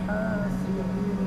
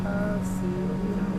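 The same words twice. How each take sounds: Both takes have the same delivery.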